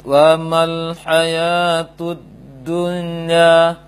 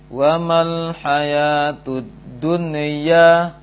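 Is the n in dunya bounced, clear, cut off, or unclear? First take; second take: unclear; bounced. First: The n before ya is barely heard. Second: The n is released with a bouncing echo. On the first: "tidak jelas nunnya, maka keliru" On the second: "Atau dia terpantulkan"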